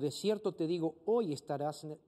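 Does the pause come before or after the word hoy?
before. The pause comes before the word hoy.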